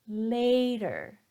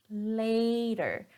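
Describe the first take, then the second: The two takes are said the same way.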